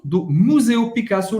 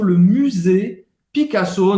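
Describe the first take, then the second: First: Said in the usual way. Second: Le Musée Picasso in French, musée with rounded y; French accent. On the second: Shown as a demonstration. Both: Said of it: "pronúncia em francês".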